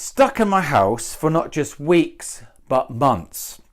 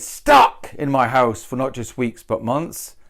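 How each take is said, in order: First: Slow, weeks leaned on; slow read, weight on weeks; stress on weeks. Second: Stuck punched, months trailing up; stress on stuck. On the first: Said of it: "Why did I choose weeks?". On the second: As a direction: hit Stuck first. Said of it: "another way of saying it". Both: Shown as a demonstration.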